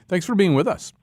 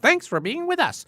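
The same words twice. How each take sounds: First: It is said in his normal voice. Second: It is said in a joyous robot voice.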